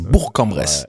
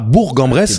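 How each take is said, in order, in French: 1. Bourg se termine par un K dur. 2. Bourg se termine par un G doux. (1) "il faut bien prononcer le K à la fin et pas le G" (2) "c'est pas Bourg-en-Bresse"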